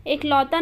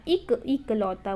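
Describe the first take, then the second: First: एकलौता said with a clear ए at the start; wrong form. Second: इक, इकलौता said lower with a short इ; correct form. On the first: Teacher showing students the wrong form, wrong start. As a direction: model the mistake एकलौता, starting on ए. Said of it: "एक नहीं होता". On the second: Teacher giving students the correct form, lower and softer. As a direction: give इक, इकलौता softly, short इ. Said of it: "इक, इकलौता बोलते हैं". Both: Shown as a demonstration.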